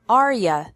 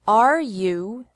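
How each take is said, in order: First: You is reduced to ya. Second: You is said in full.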